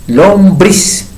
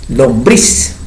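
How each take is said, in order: First: Lombriz said deliberately with a slight lift; emphatic demo. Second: Said in the usual way. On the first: Shown as a demonstration. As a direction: repeat Lombriz for the class to analyse. (Lombriz repetida con énfasis para analizarla) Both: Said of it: "¿Cuál sería la consonante?".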